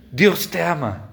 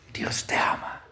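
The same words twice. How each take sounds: First: Said in the usual way. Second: Hushed, voiceless whisper to one person. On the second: Retold or imitated. Preacher re-enacting words to a possessed person, whispered. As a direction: whisper it very softly, close up.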